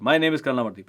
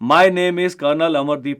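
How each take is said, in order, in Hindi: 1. वाक्य तेज़ और जोशीले अंदाज़ में बोला गया है। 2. वाक्य धीरे और हल्के स्वर में बोला गया है। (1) "ऐसे भी बोल सकता हूं" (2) "मैं धीरे धीरे बोल सकता हूं"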